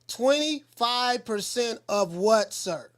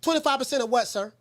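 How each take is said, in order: First: The phrase is said slowly and deliberately. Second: The phrase is said at a normal pace.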